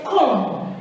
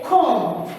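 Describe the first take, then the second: First: "comb" with a B sounded after M; wrong pronounced B. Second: "comb" ending on M, no B; correct silent B. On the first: Retold or imitated. Teacher imitating many people, "comb" with audible B. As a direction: end "comb" on a released B. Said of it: "very many people say comb". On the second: Shown as a demonstration. Teacher telling class how to say it, "comb" with silent B. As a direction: let "comb" close on the M. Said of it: "you don't pronounce it".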